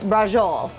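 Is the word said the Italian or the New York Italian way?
New York. It is said the way New York Italians say it. "my New York Italians say brajol"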